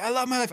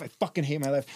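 First: High, forced cheer in retelling; mock-rousing car shout; back-and-forth affirmation. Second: Dropped to usual pitch, bitter counter; grumbled comeback to own affirmation; back-and-forth retort. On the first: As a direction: pitch the affirmation up, forcing it. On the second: Retold or imitated. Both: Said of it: "I'm going back and forth".

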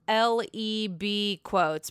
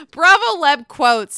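First: "L E B quotes" spelled out letter by letter, slowly; misread handle. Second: "Bravo Leb quotes" said as one word "Leb", slow, loud and emphatic; corrected name. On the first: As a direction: read "L E B" as separate letters, halting. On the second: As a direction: fix it firmly: "Leb", not letters. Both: Real, not acted. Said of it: "I butchered your name".

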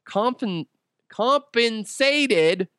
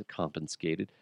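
First: "compensated" stretched out very slowly, high-pitched; over-enunciated correction. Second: Low, much softer retry of the word; muttered correction. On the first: Host mocking own slip, over-enunciating "compensated". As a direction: sound out "compensated" syllable by syllable, high and drawn out. Repeats stumbled word exaggeratedly. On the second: Host fixing a slip while reading, muttered low. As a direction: mumble it under your breath. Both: Real, not acted.

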